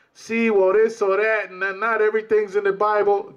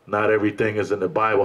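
First: Higher, sing-song put-on excuse voice; mocking evasive brother. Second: Said in the usual way. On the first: Preacher mocks brothers who dodge scripture, sing-song excuse. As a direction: mimic the brother dodging the scripture. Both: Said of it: "coming sideways with".

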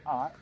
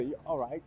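First: "All right" cut short, swallowing the ending; imitated short "All right". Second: "all right" said in full; full "You all right?". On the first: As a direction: mimic a reduced, run-together "All right". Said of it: "You said". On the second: Shown as a demonstration. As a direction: sound out each word of "all right". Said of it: "you didn't say".

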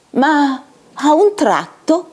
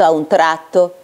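First: Slow, raised storyteller's suspense; dramatic suspense. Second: Said in the usual way. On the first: A narrator's reading. Narrator breaks the clerk's bliss at the opera, suspenseful. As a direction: draw out the sudden turn.

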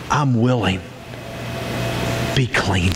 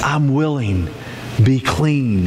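First: Quietly tender command; intimate, low. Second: Firmer repeat. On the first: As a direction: close to his face, gently. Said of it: "he got right up in his face and he said". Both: Retold or imitated.

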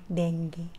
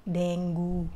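First: Dengue ending deng-ge; Filipino dengue. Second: Dengue ending deng-gu; Indian dengue. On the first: Vlogger showing the Filipino dengue, ending ge. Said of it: "sa atin, di ba?". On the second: Vlogger showing the Indian dengue, ending gu. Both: Shown as a demonstration.

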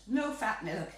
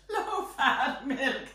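First: Said in the usual way. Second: Slow, louder, drawn-out mockery; mocking. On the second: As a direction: draw it out with amused disdain. Mocks low-fat milk, repeating it.

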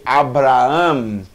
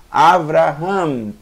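First: ABRAHAM drawn out, with B instead of V; wrong B sound. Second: AVRAHAM drawn out, with V instead of B; correct V sound. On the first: Teacher shows the mistaken reading, pronounced with a B. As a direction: say Abraham with a hard b in the middle. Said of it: "vai ter som de B". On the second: Teacher corrects the mistaken reading, pronounced with a V. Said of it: "Não é porque aparece essa letra que vai ter som de B". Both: Shown as a demonstration.

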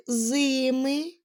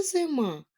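First: Зими with a long stressed first syllable ЗИ. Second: Зима with the stress on the final МА; stress on second syllable. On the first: Teacher quizzing children on stress, зими stressed on ЗИ. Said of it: "наголошений перший склад". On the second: Teacher giving children the word, зима stressed on МА. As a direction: lean on the last syllable of зима. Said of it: "наголошений другий склад". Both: Shown as a demonstration.

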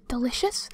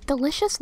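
First: Breathy satisfied whisper. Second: Said in the usual way. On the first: Real, not acted. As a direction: savour it in a whisper. Whispered, then said plainly.

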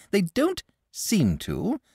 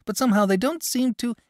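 First: Put-on slow, higher dragon voice echoing the boy. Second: The boy trails off, lightly voiced; plain young lad letting the sentence fade; boy's voice. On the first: Dragon echoes the boy's complaint, slow creature voice. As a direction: repeat his words in the creature's voice. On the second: Boy complains parents don't care, lightly voiced.

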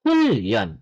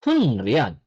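First: "hulyeon" low, n and r merged into a long L; correct assimilated pronunciation. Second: "Hunryeon" low, with separate n and r; spelling pronunciation. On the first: Korean teacher giving the right form, assimilated pronunciation. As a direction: say "hulyeon" as hul-lyeon. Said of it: "yung tamang pronunciation is". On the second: Korean teacher showing the spelled word, spelling pronunciation. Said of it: "Yan yung spelling". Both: Shown as a demonstration.

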